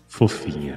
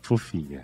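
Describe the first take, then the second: First: It is said in a radio announcer voice. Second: It is said in the speaker's usual voice.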